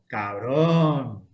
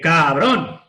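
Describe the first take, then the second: First: It is said in an admiring, impressed tone. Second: It is said in an angry, pained tone. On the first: The friend bought an impressive car. "que puede decir, menudo coche te has comprado" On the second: The friend hit or hurt the speaker. "Que puede ser que me has dado un golpe"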